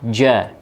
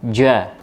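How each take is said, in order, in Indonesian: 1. Bunyi j-nya mendesis terlalu kuat. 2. Bunyi j-nya mendesis terlalu kuat.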